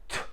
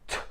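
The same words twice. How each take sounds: No difference in how they are said.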